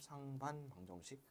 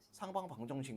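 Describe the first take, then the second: First: The first word ends in an n sound. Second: The first word ends in an ng sound. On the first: The speaker calls it right. "상반 방정식이야" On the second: The speaker calls it wrong. "상방 방정식 막 이렇게 발음할 거예요"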